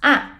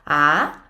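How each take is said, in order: First: The pitch falls sharply from high. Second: The pitch rises from mid to high. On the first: "the descending tone... sound a little angry" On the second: "the rising tone... will sound like a question"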